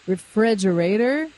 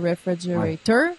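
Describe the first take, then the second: First: The stress is on the second syllable. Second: The stress is on the last syllable. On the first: The speaker calls it right. "ça va être le frais" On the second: The speaker calls it wrong. "tu vas pas dire refrigerator. Ça serait très québécois qui parle mal anglais"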